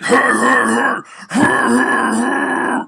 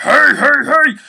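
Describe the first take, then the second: First: Rough, loud, raspy growled hey; raspy deeper hey. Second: Very high, loud thin yelp; high squeaky hey. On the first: Showing the better, deeper version, raspy growled hey. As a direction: push it from the chest with rasp. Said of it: "you're like". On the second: Showing the wrong, thin version, high squeaky yelp. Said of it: "instead of it sounding like". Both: Shown as a demonstration.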